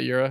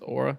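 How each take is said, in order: First: The word begins with a 'yoo' sound. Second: The word begins with an 'aw' sound. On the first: The speaker calls it wrong. "It's not Eura" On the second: The speaker calls it right. "it's Aura"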